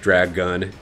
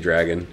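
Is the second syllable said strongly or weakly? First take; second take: strongly; weakly. First: The second syllable is strongly enunciated, like gun. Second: The second syllable is weak and reduced. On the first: "enunciates the gun very, very, uh, very strongly" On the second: "He doesn't say dragon"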